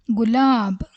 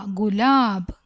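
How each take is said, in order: Both takes have the same delivery.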